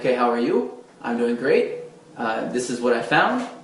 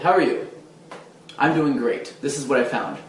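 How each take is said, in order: First: Sentences end on an upward, questioning note. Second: Sentences end on a downward, confident note.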